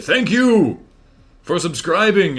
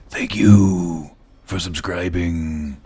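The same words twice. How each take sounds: First: It is said in his normal voice. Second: It is said close-miked in a Solid Snake voice.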